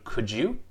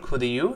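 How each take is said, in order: First: The d and you merge into a 'j' sound. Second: The two words are said separately without linking. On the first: The speaker calls it right. "是Could you" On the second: The speaker calls it wrong. "不是Could you"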